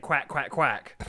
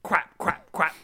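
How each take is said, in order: First: "Quack" with a clean final k; clearly pronounced quack. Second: "quack" ending in p, like "kwap"; pitched-up "quack" said as "kwap"; toddler mispronunciation. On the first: Dad reveals what daughter really said, "Quack" with final k. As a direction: end each "Quack" on a crisp k. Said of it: "turned out she was saying". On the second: Dad mimics daughter walking round repeating it, "quack" as "kwap". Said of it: "she would walk around and go". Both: Retold or imitated.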